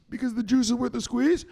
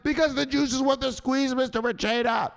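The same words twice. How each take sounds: First: High recited answer, rising at the end; higher put-on follower voice; dutiful follower. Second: High-pitched, adoring pledge; gushing put-on pupil voice; follower loving it. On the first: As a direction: play a pupil answering uncertainly. Follower's first take of the slogan. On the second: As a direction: recite it like you love it. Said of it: "Say it like you love it".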